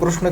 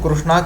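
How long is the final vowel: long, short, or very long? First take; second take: short; long. First: The final vowel is short. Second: The final vowel is long. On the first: "कृष्ण के नाम में जो अ आया वो ह्रस्व हुआ" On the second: "कृष्णा के नाम में जो आ आया वो दीर्घ हुआ"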